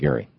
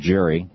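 First: The name begins with a hard G sound. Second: The name begins with a soft J sound. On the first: The speaker calls it right. "no, it's pronounced like Gerry" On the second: The speaker calls it wrong. "I was calling him Mr. Gerry because they call it gerrymandering"

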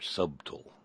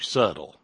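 First: The B in the middle is clearly pronounced. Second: The B in the middle is silent.

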